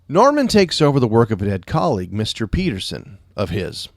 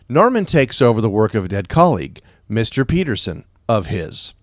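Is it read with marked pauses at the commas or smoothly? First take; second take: smoothly; marked pauses. First: It is read smoothly without marked pauses. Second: It is read with marked pauses at commas.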